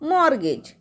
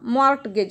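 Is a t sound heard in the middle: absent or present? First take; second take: absent; present. First: No t sound is heard before the g. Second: A t sound is heard before the g. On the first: The speaker calls it right. "यामध्ये टी silent आहे" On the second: The speaker calls it wrong. "मॉर्टगेज म्हणतील याला. तर हे मॉर्टगेज नाही आहे"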